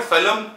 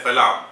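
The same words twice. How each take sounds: First: "salam" with a short, reduced second vowel; first pronunciation. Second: "salam" with a long open second vowel; alternative pronunciation. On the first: Lecturer giving the word's first pronunciation, "salam" as SAH-lum. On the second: Lecturer showing the alternative pronunciation, "salam" as sa-LAAM. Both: Shown as a demonstration. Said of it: "can also be pronounced as".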